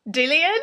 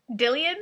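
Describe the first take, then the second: First: Dillian, high and loud, rising sharply; louder incredulity. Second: Dillian, questioning with a higher rising end; incredulous question. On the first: Customer reading her misspelled name, loud disbelief. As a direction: exclaim the botched name as an outraged question. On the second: Customer reading her misspelled name, first puzzled disbelief. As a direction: query the botched name in disbelief. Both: Real, not acted.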